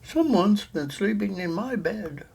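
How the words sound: It is said in a medium-sized voice. A middle-sized mother bear is speaking. "said the mother bear in her middle-sized voice"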